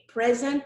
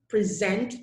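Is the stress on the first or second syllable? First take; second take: first; second. First: The stress is on the first syllable. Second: The stress is on the second syllable. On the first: It is used as a noun. "Present is a noun" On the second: It is used as a verb. "present is the verb"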